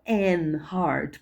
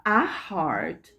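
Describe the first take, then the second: First: "an heart" with no h sound; old an heart. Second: "a heart" with the h sounded; modern a heart. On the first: Teacher contrasts the old "an heart", h dropped. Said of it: "não". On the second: Teacher models "a heart" with a sounded h. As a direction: say "a heart" with a clear h on "heart". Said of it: "E hoje a gente fala". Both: Shown as a demonstration.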